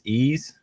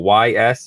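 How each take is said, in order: First: The name is said as one word. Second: The name is spelled out as letters. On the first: "we agreed we pronounce this Ease" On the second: "or you know Y S"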